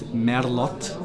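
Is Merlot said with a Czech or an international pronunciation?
Czech. It is said with a Czech pronunciation. "in Czech the pronunciation is Merlot"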